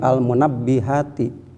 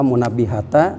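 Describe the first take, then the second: First: The word ends with an i vowel. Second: The word ends with an a vowel. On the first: The speaker calls it right. "tetapi al munabbihati" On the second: The speaker calls it wrong. "jangan pula munabbihata"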